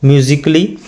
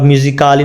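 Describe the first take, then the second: First: "म्यूजिकली" as myu-zik-li, no vowel after क; silent-a pronunciation. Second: "म्यूजिकली" misread as myu-zi-kaa-li; wrong pronunciation. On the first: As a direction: let the अ vanish in "म्यूजिकली". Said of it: "अ थोड़ा silent इसमें रहेगा". ("म्यूजिकली" में अ लगभग silent) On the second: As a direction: put a long आ after क in "म्यूजिकली". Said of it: "म्यूजिकली नहीं पढ़ेंगे". ("म्यूजिकली" को गलत ढंग से म्यूजिकाली बोलना) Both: Shown as a demonstration.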